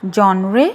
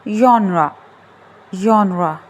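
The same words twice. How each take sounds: First: Genre as JON-ray, rising like a question; Genre mispronounced JON-re; wrong pronunciation. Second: Genre ending in "ra", falling tune; correct pronunciation. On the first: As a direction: say Genre with a hard J and an ee or ay ending. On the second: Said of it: "it's genre". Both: Shown as a demonstration.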